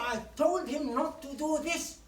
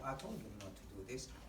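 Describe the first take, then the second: First: It is said in an angry tone. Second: It is said in a calm tone. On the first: The speaker calls it right. "If you're angry, you say" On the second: The speaker calls it wrong. "You cannot say"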